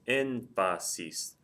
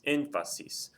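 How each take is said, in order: First: Énfasis slowly split as én-fa-sis; énfasis in three slow beats, stress on ÉN; syllable by syllable. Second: Said in the usual way. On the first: Shown as a demonstration. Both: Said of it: "It's three syllables".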